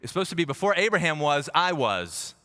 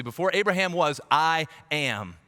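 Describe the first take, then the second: First: "before Abraham was, I was" read as the mock fix, lightly stressed; mock correction. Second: "Before Abraham was, I am" with the original tense, firm and raised; emphatic original. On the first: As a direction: correct Jesus' grammar with mock sarcasm. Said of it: "you mixed up your words there". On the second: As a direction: restore the real words with conviction. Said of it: "He's saying it intentionally". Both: Shown as a demonstration.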